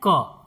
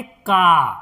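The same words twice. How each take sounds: First: क said as a plain short 'kuh'; inherent a sound. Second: का stretched into 'kaaa'; long aa sound. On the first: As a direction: give क only the short 'uh' vowel. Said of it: "अ का sound". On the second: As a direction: hold the vowel in का long. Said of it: "अगर आ की मात्रा लगाएंगे". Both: Shown as a demonstration.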